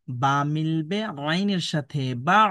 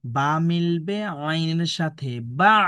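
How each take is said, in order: First: Slow recitation demo. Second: বা মিলবে আইনের সাথে বা spelled out slowly, each syllable apart; teacher modelling the joined syllable even slower; slower demo. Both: Shown as a demonstration. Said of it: "দেখুন এইভাবে উচ্চারণ করবেন".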